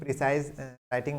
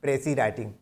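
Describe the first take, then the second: First: The first word ends with a long 'size' sound. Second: The first word ends in a plain 'see' sound. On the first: The speaker calls it wrong. "कुछ लोग इसका गलत उच्चारण करते हैं" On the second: The speaker calls it right. "French भाषा से आया हुआ शब्द है, इसको हम बोलते हैं"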